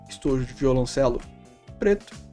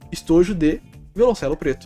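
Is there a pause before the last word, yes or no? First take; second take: yes; no. First: There is a pause before the last word. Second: There is no pause before the last word. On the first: "estojo de violoncelo, vírgula, preto" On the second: "a segunda eu tô falando que o violoncelo é preto"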